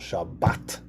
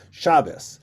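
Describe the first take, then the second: First: The stress is on the last syllable. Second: The stress is on the first syllable.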